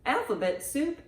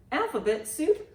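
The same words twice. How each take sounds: The two takes are said the same way.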